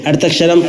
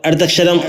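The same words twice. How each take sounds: The two takes are said the same way.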